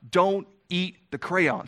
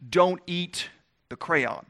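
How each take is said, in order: First: DON'T leaned on, each word drawn out; slow the warning down and press on "Don't"; slow parental warning. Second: Parent's warning. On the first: A parent slowly warning the child off the crayon, stressing "Don't". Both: Retold or imitated. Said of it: "it's like when you tell your child".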